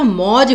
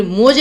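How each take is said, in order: First: मौज with an open "au", like "mauj"; correct vowel. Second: मौज said with a close "o", like "moj"; wrong vowel. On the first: Teacher correcting the spelling, मौज with clear "au". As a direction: say मौज with the wide au sound. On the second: Teacher showing students the misspelling, मौज with plain "o". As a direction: say मौज as "moj", not "mauj". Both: Shown as a demonstration. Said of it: "ओ नहीं, औ की मात्रा".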